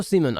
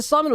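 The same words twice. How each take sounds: First: Simon said as SEE-mun; alternative pronunciation. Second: Simon said as SIGH-mun, the English way; alternative pronunciation. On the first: Asking which name is right, Simon as SEE-mun. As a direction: say Simon with a long ee first vowel. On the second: Asking which name is right, Simon as SIGH-mun. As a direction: say Simon with an eye vowel first. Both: Shown as a demonstration. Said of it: "I don't, actually don't know".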